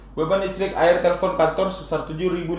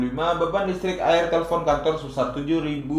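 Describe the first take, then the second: Both takes have the same delivery.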